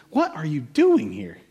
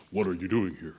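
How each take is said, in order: First: Slow question. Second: A deep, soft, booming-style voice of God, much lower; James Earl Jones voice. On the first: Shown as a demonstration. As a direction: draw the question out slowly. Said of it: "I don't know the inflection in God's voice". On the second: Pretend. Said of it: "sounds like James Earl Jones".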